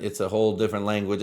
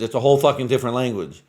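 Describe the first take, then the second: First: Said in the usual way. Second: "fucking" punched louder in a quick line; emphatic, louder repeat leaning hard on "fucking"; stress on FUCKING. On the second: Real, not acted. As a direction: hammer "fucking" to drive the point home. Repeats point with added intensifier.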